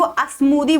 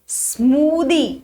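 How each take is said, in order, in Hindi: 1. s से पहले एक अतिरिक्त स्वर जोड़ा जाता है। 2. शब्द सीधे s की ध्वनि से शुरू होता है। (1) "मैं मैं स्मूदी को अस्मूदी बोलती हूँ" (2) "ये प्रोनाउंसिएशन के तरीके होते हैं"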